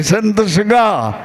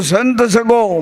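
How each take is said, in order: First: Slow સગા with a long final a, each syllable drawn out; સંત સગા spoken slowly, stressing the final a of સગા; corrected wording. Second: સગો said with a final o, as first sung; સંત સગો with સગો ending on o, the wrong first version; first wording. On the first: Shown as a demonstration. The disciple gives the guru's correction, slowly saying સગા with a. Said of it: "સંત સગા કયો, સગો નહીં". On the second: Retold or imitated. The disciple repeats the verse to his guru, saying સગો with o. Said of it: "મેં કીધું".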